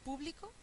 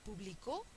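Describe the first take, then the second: First: The stress is on the first syllable. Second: The stress is on the last syllable. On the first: "es una esdrújula que lleva tilde" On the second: "es aguda y lleva tilde"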